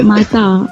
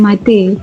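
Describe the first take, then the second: First: The final vowel is a full open 'a'. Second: The final vowel is a reduced schwa. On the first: The speaker calls it right. "vokal A disebut A ... disebut mata" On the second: The speaker calls it wrong. "bukan mata"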